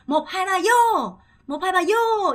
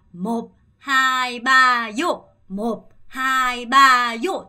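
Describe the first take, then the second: First: 몹 하이 바요 quicker, higher and louder; faster. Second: 몹 하이 바요 very slow and louder; slow loud drill. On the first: Teacher speeds up the toast drill, higher and loud. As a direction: rattle off 몹 하이 바요 faster. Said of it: "좀 더 빠르게". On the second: Teacher drills the toast slowly and loud. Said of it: "다시 한번 해볼게요". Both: Shown as a demonstration.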